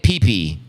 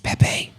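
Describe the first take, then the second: First: Both syllables sound like the letter P. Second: The syllables do not sound like the letter P. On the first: The speaker calls it wrong. "how many of you were calling it P P when it first came out? I think that's how I was pronouncing it" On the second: The speaker calls it right. "They're like, it's, it's Pepe"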